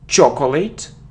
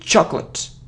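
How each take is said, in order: First: A vowel is heard between the c and l. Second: The c runs straight into the l sound. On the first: The speaker calls it wrong. "so it isn't chocolate" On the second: The speaker calls it right. "it's chocolate ... So it's like cl"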